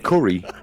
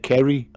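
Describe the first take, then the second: First: It is said in the speaker's own accent. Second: It is said in a Hartlepool accent.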